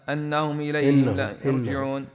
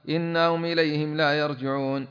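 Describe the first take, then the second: First: The first word begins with an 'a' vowel. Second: The first word begins with an 'i' vowel. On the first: The speaker calls it wrong. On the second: The speaker calls it right.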